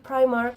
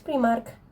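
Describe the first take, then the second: First: It is pronounced with an English accent. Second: It is pronounced with a Spanish accent. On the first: The speaker calls it wrong. "If you say Primark, here you sound like too mm, annoying" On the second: The speaker calls it right. "Don't say that. It's Primark"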